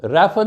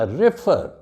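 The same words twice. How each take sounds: First: refer said as REF-er; wrongly stressed first syllable. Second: refer said as re-FER; short first syllable, stressed FER in refer; stress on second syllable. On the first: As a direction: punch the first syllable of refer, weak ending. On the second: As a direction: lean on the end of refer. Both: Shown as a demonstration. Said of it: "refer नहीं कहना".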